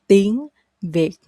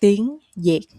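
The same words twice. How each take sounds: First: "tiếng Việt" with v as in very; standard V sound. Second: "Việt" said with a y, as "yệt"; Southern Y sound. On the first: Teacher gives the first option for Vietnamese, "Việt" with a v. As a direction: begin "Việt" with an English v. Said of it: "start with V sound". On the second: Teacher gives the other option, "Việt" with a y. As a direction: begin "Việt" like yay, not very. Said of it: "then the other option". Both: Shown as a demonstration.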